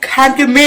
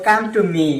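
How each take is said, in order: First: The k sound is aspirated, with a breath. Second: The k sound is plain, without a breath. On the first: The speaker calls it right. "अमेरिकन भाषा क्या होगा?" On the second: The speaker calls it wrong. "ऐसे नहीं होगा"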